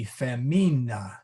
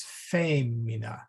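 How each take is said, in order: First: Femina with the stress moved to the long I, fe-MI-na. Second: Femina with the stress on the first syllable, FE-mi-na. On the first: Teacher shows the class the stress if the I were long, on the middle syllable. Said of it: "let's say the I was long". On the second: Teacher shows his Latin class where the accent falls, stressing the first syllable. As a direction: say femina leaning on FE, the rest light. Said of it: "So the accent goes on the vowel in front of it". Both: Shown as a demonstration.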